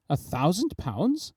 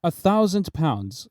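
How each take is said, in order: First: Softer rising query, slowed; questioning. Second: Said in the usual way. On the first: A narrator's reading. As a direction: ask back in quiet disbelief. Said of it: "said he". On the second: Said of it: "said I".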